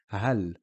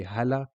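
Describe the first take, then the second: First: "hal" ending on L, no following vowel; stop on the L. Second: "hala" carried on past L into a short a; continued vowel. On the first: Teacher showing what the sukoon does, stopped L. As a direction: finish "hal" on the L in one syllable. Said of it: "It means we stop here". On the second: Teacher showing what we don't say, continued vowel. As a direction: add a second syllable la in "hala". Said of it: "We don't continue on to say". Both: Shown as a demonstration.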